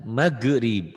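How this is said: The middle consonant is a hard g sound. "kalau orang Sunda kan maghrib, G-nya keras"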